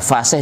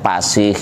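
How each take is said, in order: First: The word begins with a breathy f sound. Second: The word begins with a p sound. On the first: The speaker calls it right. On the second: The speaker calls it wrong.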